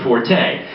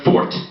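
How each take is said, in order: First: The word ends with a sounded E vowel. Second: The word ends with a silent E. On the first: Something is played very loudly. The speaker calls it wrong. "If you pronounce the E" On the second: Someone has a particular skill. The speaker calls it right. "you have a fort in something"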